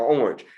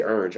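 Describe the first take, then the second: First: "orange" said in its other common form; alternative pronunciation. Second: "orange" said the everyday local way; casual local pronunciation. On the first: Teacher offering students another form, alternative pronunciation. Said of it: "we say orange, or orange". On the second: Teacher showing students how we say it, casual local pronunciation. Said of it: "You know, we say orange". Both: Shown as a demonstration.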